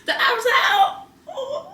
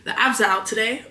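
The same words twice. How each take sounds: First: High, laughing through the words. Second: Said in the usual way. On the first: Real, not acted. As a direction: crack up while saying it. Repeats it laughing.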